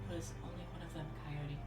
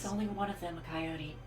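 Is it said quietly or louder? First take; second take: quietly; louder. First: It is whispered very quietly. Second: It is a louder stage whisper.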